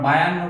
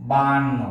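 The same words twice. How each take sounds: First: বায়ান্ন as "ba-yan-no"; wrong y-glide form. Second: বায়ান্ন as "baan-no", long a; correct glideless form. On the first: Teacher rejecting common বায়ান্ন, ba-yan-no with glide. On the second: Teacher offering the accepted form baan-no, long a without glide. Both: Shown as a demonstration. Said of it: "আমরা বায়ান্ন বলবো না".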